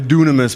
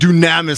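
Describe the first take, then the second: First: The word is said in its plainer standard pronunciation. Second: The word is said in a more forceful pronunciation. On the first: This is the correct way to say it. "the right way to say it is probably dunamis" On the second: This way conveys more power. "dunamis sounds more powerful"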